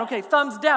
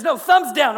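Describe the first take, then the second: First: Said in the usual way. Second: Loud, higher barked order on thumbs; drill sergeant yell. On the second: Retold or imitated. Drill sergeant ordering thumbs down, loud yell. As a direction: shout the order down at him. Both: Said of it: "Can I yell at you?".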